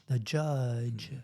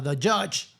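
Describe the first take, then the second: First: "judge" softened, with voiced j sounds; lower, softer "judge" with a gently buzzed ending; coached "judge". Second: "judge" with a hard ch-like start and end; accented "judge". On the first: Reporter showing the coach's version, softly voiced "judge". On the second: Reporter showing the old accent, hard-edged "judge". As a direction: say "judge" the accented way, sharp "chuch" consonants. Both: Shown as a demonstration. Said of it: "teach me how to say".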